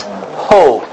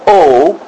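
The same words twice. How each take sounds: First: "ho" with a clear h in front; breathed HO. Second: Bare "O" with no h sound; plain O without breath. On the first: Teacher showing what the breathing mark says, breathed "ho". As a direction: start "ho" on an audible breath. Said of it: "That says ho". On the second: Teacher showing students the wrong reading, unaspirated "O". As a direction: say "O" as a plain vowel, no aspiration. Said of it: "It's not just O". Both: Shown as a demonstration.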